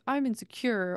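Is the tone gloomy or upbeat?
gloomy. It is said in a gloomy, down tone.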